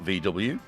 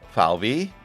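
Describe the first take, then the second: First: The letters are named with English letter sounds. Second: The letters are named with German letter sounds. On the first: The speaker calls it wrong. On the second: The speaker calls it right.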